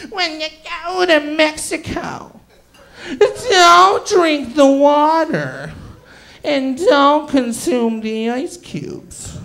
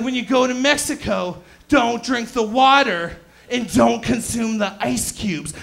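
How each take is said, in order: First: Very slow, drawn-out witch voice; witch warning. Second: Put-on terrible Portuguese accent. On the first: Retold or imitated. Family warning him off like a mountain witch, hammed-up witch voice. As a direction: draw out each word like an ominous witch. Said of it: "like a witch warning me not to go to the mountain". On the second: Family warning him about Mexico, mock Portuguese accent. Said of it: "that's a terrible Portuguese accent".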